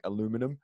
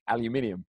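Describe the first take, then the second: First: It is said with an American pronunciation. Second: It is said with a British pronunciation. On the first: "Americans sometimes really pronounce every every letter in the word, like aluminum" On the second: "as English we say aluminium"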